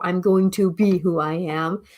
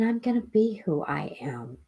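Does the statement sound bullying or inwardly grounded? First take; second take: bullying; grounded. First: It sounds pushy and forceful, aimed outward. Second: It sounds calm and self-assured, aimed inward. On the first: It is a display of power over others. The speaker calls it wrong. "that's a bullyish thing" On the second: It expresses inner personal power. The speaker calls it right. "it's an inward thing"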